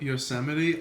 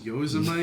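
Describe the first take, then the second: First: The word ends with an 'ee' sound. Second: The word ends rhyming with 'mites'. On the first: The speaker calls it right. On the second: The speaker calls it wrong.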